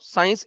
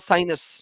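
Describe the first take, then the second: First: The word is said with two syllables, science. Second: The word is said with three syllables, sinus. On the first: "साइनस भी बोल सकते हैं आजकल साइंस को" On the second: "साइंस is now साइनस"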